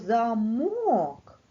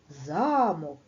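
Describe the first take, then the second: First: The stress is on the second syllable. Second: The stress is on the first syllable. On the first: A device that keeps a door locked. "А якщо замок, то це у нас пристрій" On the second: A huge building with towers. "На перший склад замок"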